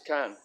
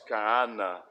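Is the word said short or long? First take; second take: short; long. First: It is one short syllable, kan. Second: It has a long vowel and two syllables. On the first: This is the colloquial spoken form. "in spoken Arabic, it's kan" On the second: This is the formal standard form. "in modern standard Arabic and formal Arabic, it's pronounced kaana"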